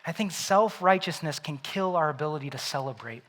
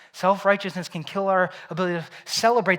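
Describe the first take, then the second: First: Said in the usual way. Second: Louder, punching the whole line; emphatic repeat. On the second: Shown as a demonstration. Preacher repeating his point to the congregation, emphatic. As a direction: drive the point home. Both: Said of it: "repeated for emphasis".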